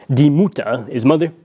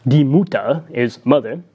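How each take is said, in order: Both takes have the same delivery.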